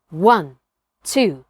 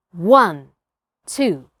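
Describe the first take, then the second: No difference in how they are said.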